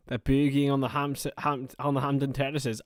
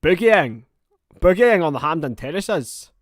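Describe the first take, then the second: First: Lightly attempted Scottish accent. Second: Loud, higher, hammed-up Scottish accent. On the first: Streamer trying out an accent for the chat, mild Scottish. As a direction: have a tentative go at a Scottish accent. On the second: Streamer showing off his Scottish accent to the chat, loud and exaggerated. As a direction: belt out a bad Scottish accent. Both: Shown as a demonstration. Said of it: "That's my Scottish accent".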